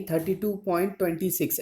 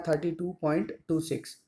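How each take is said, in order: First: "thirty two point twenty six" with the decimals read as one number, "twenty six"; wrong decimal reading. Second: "thirty two point two six" with each decimal digit said alone, "टू" then "six"; digits read separately. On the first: Teacher shows students the wrong way to read a decimal, as a whole number. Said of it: "ऐसे नहीं पढ़ना है". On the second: Teacher shows students the right reading of a decimal, digit by digit. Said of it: "split कर कर के after जो decimal हम लोग पढ़ेंगे". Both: Shown as a demonstration.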